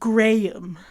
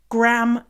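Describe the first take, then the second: First: Said in a British accent. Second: Said in a Canadian accent, one syllable. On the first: "instead of Graham" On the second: "Graham crackers instead of"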